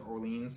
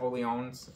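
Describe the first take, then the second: First: It is said in an Americanized way. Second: It is said in a French-like way. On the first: This is the speaker's preferred pronunciation. "I'm going to pronounce it Orleans because ... I like the way it sounds better" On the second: This is the expected pronunciation. "I think you're supposed to pronounce it Orleans"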